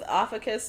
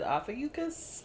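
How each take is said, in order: First: The U sound in the middle is not pronounced. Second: The U sound in the middle is clearly pronounced. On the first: "I was going with Ophiuchus before" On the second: "are we pronouncing the U? Okay, we're pronouncing the U"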